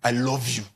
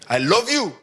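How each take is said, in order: First: Low, flat, grudging I love you; loveless I love you. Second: Loud, laughing I love you; mocking I love you. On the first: Acted. To someone who doubts it, a cold, low I love you. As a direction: say it like you don't mean it. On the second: To someone who doubts it, a louder, laughing I love you. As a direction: laugh it out so nobody believes you. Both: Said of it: "the kind of love that comes with that face".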